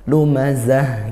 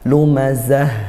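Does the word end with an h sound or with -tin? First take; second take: h sound; h sound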